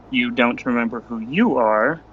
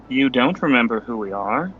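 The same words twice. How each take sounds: First: Low, measured challenge with "you" picked out before "are"; stress on YOU. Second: Low, measured challenge ending on a lifted "we"; stress on WE. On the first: Challenging a stranger on who he is, stress on "you". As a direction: lean on the second "you", rising. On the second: Challenging a stranger on who we are, stress on "we". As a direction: hit "we" at the end, rising. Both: Acted. Parallel lines contrasting we and you.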